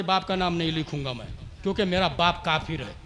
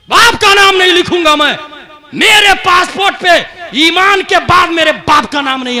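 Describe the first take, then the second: First: Low, very soft, quick retelling; quiet quoted refusal. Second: Raised, higher voice of indignant refusal; acted emphatic refusal. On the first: Retold or imitated. Quoted refusal, first told quietly. (धीमी, दबी आवाज़ में इनकार) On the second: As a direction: act out the refusal forcefully for the crowd. Same refusal re-enacted forcefully. (ऊँची आवाज़ में ज़ोरदार इनकार)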